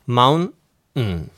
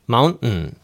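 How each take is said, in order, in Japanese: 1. 短い間を置いて、ゆっくり言われています。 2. 間を置かず、速く言われています。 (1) "ゆっくり言いますとmountain の後に一瞬間を開けてんっていうだけです" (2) "早ければと"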